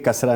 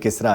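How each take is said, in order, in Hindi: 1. पहला स्वर 'a' की ध्वनि है। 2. पहला स्वर 'i' की ध्वनि है। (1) "कसरा नहीं" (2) "किसरा है ये लफ्ज़ बाकायदा"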